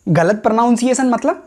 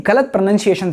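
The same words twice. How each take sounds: First: Higher, rising query on गलत pronunciation; puzzled echo question. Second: Said in the usual way. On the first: Acted. Viewer echoes it as a question. (गलत pronunciation पर चढ़ता सवालिया सुर)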